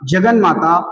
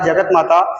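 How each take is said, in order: First: An n sound comes before 'mata'. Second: A t sound comes before 'mata'. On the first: The speaker calls it right. "शब्द बन जाएगा जगन माता" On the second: The speaker calls it wrong. "आप कहते हैं जगत माता जगत माता, वर्तनी में भी आप गलत ही उच्चारण करते हैं"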